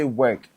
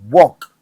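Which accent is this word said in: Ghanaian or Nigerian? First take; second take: Ghanaian; Nigerian. First: It is said with a Ghanaian English accent. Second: It is said with a Nigerian English accent. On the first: "they don't say work" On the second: "they say walk"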